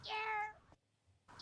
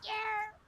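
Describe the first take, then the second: First: Very high, soft yerp call; a squeaky little yerp, almost breathed. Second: Very high, fuller yerp call. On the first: Greeting a viewer with her yerp call, very high and soft. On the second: Greeting a viewer with her yerp call, high and fuller. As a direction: squeak out yerp with more voice. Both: Pretend. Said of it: "I forgot to say your little yerp".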